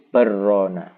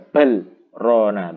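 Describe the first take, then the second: First: The l merges into a doubled r sound. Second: The l is pronounced clearly before the r. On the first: The speaker calls it wrong. "kalau baca idgham menjadi barrona" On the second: The speaker calls it right. "Jadi dibaca bal rona begitu"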